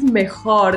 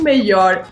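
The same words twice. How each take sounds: First: The j is pronounced like an h sound. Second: The j is pronounced like a y sound. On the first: The speaker calls it right. "J klingt auf Spanisch wie eine H" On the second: The speaker calls it wrong. "nicht mejor"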